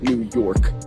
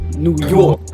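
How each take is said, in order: First: It has a plain, neutral pronunciation. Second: It has an exaggerated, cartoonish New York accent. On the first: "said it just kind of straightforward" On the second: "almost like cartoonish style of a New York accent"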